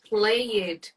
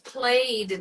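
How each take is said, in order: First: The ending is said as a separate syllable. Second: The ending joins the word in one syllable. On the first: The speaker calls it wrong. "not played" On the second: The speaker calls it right. "it's played"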